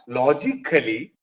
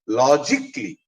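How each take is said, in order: First: The ending is said as a full 'kally'. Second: The ending is said as a short 'klee'. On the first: The speaker calls it wrong. "the right pronunciation of these words are not logically" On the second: The speaker calls it right. "the right pronunciation is logically ... It is not kali, it is kli"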